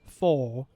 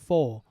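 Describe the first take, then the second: First: The final R sound is clearly pronounced. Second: The final R sound is dropped. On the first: The speaker calls it right. "in American accent, you cannot skip the R sound" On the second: The speaker calls it wrong. "not four"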